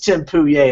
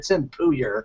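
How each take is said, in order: First: The surname has a French-style pronunciation. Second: The surname has a plain English-style pronunciation. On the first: This is the new pronunciation the fiancée wanted. "All of a sudden it was French" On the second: This is the old pronunciation of the name. "It's no longer"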